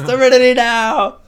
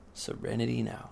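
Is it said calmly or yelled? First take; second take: yelled; calmly. First: It is yelled very loudly. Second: It is said calmly and quietly.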